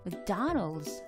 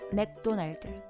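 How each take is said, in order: First: The stress is on the second syllable. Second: The stress is on the first syllable. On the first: The speaker calls it right. "더의 강세가 하기 때문에" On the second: The speaker calls it wrong. "첫 번째 음절에 강세를 주는 것처럼"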